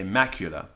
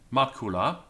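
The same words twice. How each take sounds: First: It is said in English-style Latin pronunciation. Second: It is said in classical Latin pronunciation. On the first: The speaker calls it wrong. "In the typical English pronunciation of Latin, you say macula" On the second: The speaker calls it right. "I recommend the classical pronunciation"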